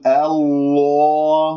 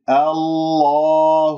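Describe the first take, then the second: First: الله held long with lips wrongly pursed; rounded-lip mistake. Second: الله held long with a heavy l, lips not rounded; heavy lam, unrounded lips. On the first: Teacher shows students what not to say, rounded-lip drawn-out recitation. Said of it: "لا تقل الله، لا تكور الشفاه". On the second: Teacher models heavy lam for students, long sustained recitation. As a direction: sustain a dark-l الله without pursing the lips. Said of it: "لا تكور الشفاه". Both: Shown as a demonstration.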